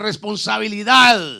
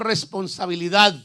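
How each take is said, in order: First: The word is said loudest of all. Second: The word is said at normal loudness.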